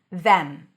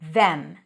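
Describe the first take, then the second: First: It has a th and a full e vowel. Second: It has a th and a full e vowel.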